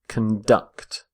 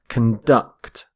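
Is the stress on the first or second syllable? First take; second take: second; second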